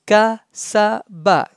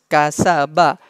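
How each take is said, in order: First: Kasaba in three separate pieces; syllable by syllable. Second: Kasaba as one connected word; joined up. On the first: Teacher breaking the word up for students, syllable by syllable. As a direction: pause between ka, sa and ba. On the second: Teacher joining the syllables for students, joined up. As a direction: run ka, sa, ba together into Kasaba. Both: Shown as a demonstration. Teacher spells out, then joins.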